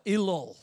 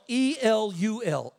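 First: Said in the usual way. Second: E L U L spelled slowly letter by letter. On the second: Shown as a demonstration. Preacher spelling the month's name for the congregation, slowly letter by letter. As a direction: spell E L U L out, one letter at a time. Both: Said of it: "The name of month six is Elul".

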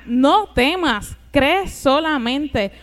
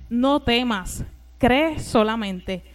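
First: NO TEMAS and CREE hit loudly, each word drawn out; slow, forceful repeat, leaning on "no" and "cree"; powerful emphasis. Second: Said in the usual way. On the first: Retold or imitated. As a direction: preach "No temas, cree solamente" with slow, weighty stress. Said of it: "Unas palabras poderosas".

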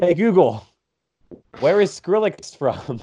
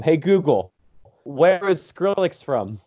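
First: Slower, louder repeat for the device; a louder, slower repeated Google command; voice command again. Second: Slow, clear command to a speaker; slow, carefully said command to Google Home. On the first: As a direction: say it slower for the device that ignored you. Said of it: "gonna choose now to break?". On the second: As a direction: spell it out slowly for the machine. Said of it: "I can use my Google Home". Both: Real, not acted.

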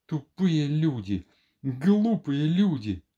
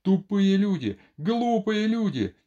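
First: Slow, drawn-out mutter of insult; spent repeating. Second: High, drawn-out cries of insult; angry shouting. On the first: Doctor alone on the sofa, slow spent repeating. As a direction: repeat it slowly to yourself, outburst over. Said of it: "дрожа как в лихорадке, лёг на диван и долго ещё повторял". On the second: Doctor insults his two visitors, angry high shout. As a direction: cry it out in outrage. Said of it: "продолжал кричать Андрей Ефимович". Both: A narrator's reading.

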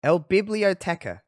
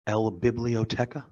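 First: El Biblioteca in a heavy English accent, slow; anglicized Spanish. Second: El Biblioteca said slowly, each syllable spelled out; Spanish word. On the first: Host repeating the Spanish word, clumsy English accent. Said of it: "I just sound like I'm being problematic when I say it". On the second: Co-host quizzing on Spanish, slow careful. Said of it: "the library?". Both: Shown as a demonstration.

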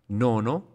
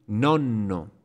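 First: Nono with a short middle N, rising; single N. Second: Nonno with a long held middle N; double N. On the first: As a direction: keep the N light in Nono. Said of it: "con una sola consonante". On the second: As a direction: lean and linger on the N of nonno. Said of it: "con doble consonante". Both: Shown as a demonstration.

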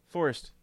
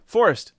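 First: Said in the usual way. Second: Loud call to get his attention. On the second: Real, not acted. Host calling the caller's name.

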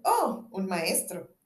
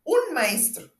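First: Modest. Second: Higher, louder, firm "Un maestro"; insist, allowing no doubt; peremptory. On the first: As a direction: play it down humbly. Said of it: "Cirano modesto". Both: Acted.

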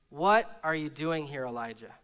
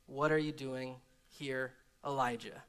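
First: Said in the usual way. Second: Low whisper voice. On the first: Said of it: "the word of the Lord came". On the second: Acted. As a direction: ask gently like a low whisper. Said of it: "the sound of a low whisper".

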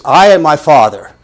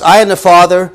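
First: I pushed out loud; stress on I. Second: I raised high and loud; stress on I. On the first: Preacher showing the Greek emphasis, stressing I. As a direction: lean on I. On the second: Preacher correcting the translation, stressing I. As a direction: put weight on I. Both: Shown as a demonstration. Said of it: "a little bit more emphatic".

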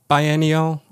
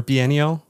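First: First syllable of "biennial" rhymes with "eye"; biennial with a long i. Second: First syllable of "biennial" rhymes with "see"; biennial with ee sound. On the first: Host asking guest how to say it, "biennial" as buy-ennial. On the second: Host offering guest the other option, "biennial" as bee-ennial. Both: Shown as a demonstration. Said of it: "How do you say it?".

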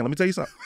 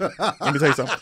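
First: Said through a laugh. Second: Said in the usual way. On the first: Real, not acted. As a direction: chuckle while saying it. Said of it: "repeats the line plainly". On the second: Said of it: "repeats after laughing take".

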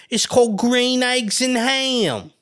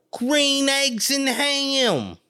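First: High, slow title; drawn out. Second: Higher still and very slow; very drawn out. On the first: Mother naming the book, high and slow. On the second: Mother repeating the title, very slow and high. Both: Retold or imitated. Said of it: "my mother would be calling like".

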